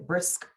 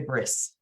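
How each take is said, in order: First: The final K sound is clearly pronounced. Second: The final K sound is dropped. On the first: The speaker calls it right. "Pronounce the K" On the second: The speaker calls it wrong. "you don't want to say brisk"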